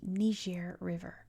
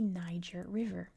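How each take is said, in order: First: Niger is pronounced the French way. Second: Niger is pronounced the English way. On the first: "known in French as the Niger River" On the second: "known in English as the Niger River"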